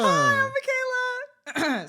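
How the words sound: It is said in a very high pitch.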